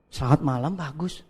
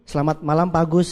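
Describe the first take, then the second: First: The voice sounds unsure and hesitant. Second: The voice sounds confident and enthusiastic. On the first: The caller does not believe in the business. The speaker calls it wrong. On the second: The caller believes the business is great. The speaker calls it right.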